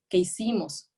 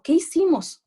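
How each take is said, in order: First: Said in the usual way. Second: Put-on high, loud scared-child question; mock frightened question. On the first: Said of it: "de decir". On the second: Lecturer acting out the trembling girl, high and loud. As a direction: ask it like a frightened little girl. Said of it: "y yo temblando".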